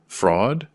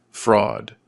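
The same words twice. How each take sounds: First: "Fraud" as a question, sharply rising tune; questioning echo. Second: Said in the usual way. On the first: A narrator's reading. Daughter questioning the lieutenant's charge, "Fraud" rising in disbelief. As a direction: lift the end of "Fraud" into a question.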